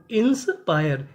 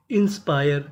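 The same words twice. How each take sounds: First: inspire broken as "ins... payar"; split into parts. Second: Said in the usual way. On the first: Shown as a demonstration. Same word broken into parts.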